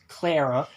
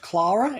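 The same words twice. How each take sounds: First: The name is said with an American pronunciation. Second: The name is said with a non-American pronunciation. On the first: The speaker calls it wrong. "they pronounce a companion as Clara" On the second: The speaker calls it right. "can you not pronounce Clara?"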